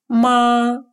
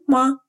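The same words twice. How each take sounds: First: The pitch stays high and level. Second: The syllable is short and light, without contour. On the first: It means mother. "с первым тоном «ма» имеет значение «мама»" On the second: It is a question particle. "с легким нулевым тоном «ма»"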